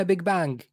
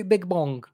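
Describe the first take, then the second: First: "بيج بانج" said with a clear open a, bang; correct big bang. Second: "بيج بونج" said with an o, as bong; wrong big bong. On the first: Correcting the guest, stating "بيج بانج" properly. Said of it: "اسمها بيج بانج". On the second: Warning the guest against saying "بيج بونج". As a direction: say "بيج بونج" the way you should not. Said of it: "لا تقولي بيج بونج". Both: Shown as a demonstration.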